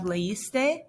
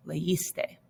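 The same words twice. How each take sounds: First: "leíste" lifted at the end, le-is-te; form before accent mark. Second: "leíste" softer, as le-ÍS-te; accented form. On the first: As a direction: say "leíste" as an unfinished example, rising. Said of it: "normally you would have". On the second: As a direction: say "leíste" quietly, stressing the middle syllable. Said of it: "you have an accent". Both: Shown as a demonstration.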